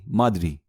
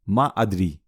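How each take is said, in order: First: The two words are run together as one. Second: The two words are said as separate words.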